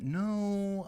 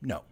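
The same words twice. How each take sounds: First: The word sounds unsure and wavering. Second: The word sounds firm and decisive. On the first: The speaker is on the fence. The speaker calls it wrong. "when you have that hesitant tone of voice" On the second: The answer is final. The speaker calls it right. "That delivers the feeling too"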